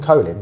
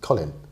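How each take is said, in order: First: The name is said like the word colon. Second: The name is said with its usual vowel. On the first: This is how other people said the name. The speaker calls it wrong. "They called him Colin" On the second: This is the name's real pronunciation. The speaker calls it right. "but it's Colin"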